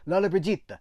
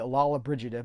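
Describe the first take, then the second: First: The name is said with an Italian pronunciation. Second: The name is said with an American pronunciation. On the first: "that's an Americanization of an Italian Lollobrigida" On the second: "the Americans pronounced it Lollobrigida"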